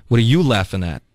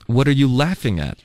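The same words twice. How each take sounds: First: "you" punched, taking offence; challenging stress on YOU. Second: Weight on "laughing", a neutral question; curious question. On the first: Teacher drilling the challenge to people laughing, stress on "you". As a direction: lean hard on "you" as a challenge. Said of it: "你笑什么笑啊". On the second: Teacher drilling the question to people laughing, stress on "laughing". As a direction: ask with "laughing" stressed, not "you". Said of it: "哎，你们在笑什么". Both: Shown as a demonstration.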